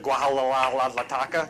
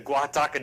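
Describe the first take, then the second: First: The name is stretched with several extra syllables. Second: The name is said with three short syllables. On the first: The speaker calls it wrong. "I think I called it" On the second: The speaker calls it right. "I said it right"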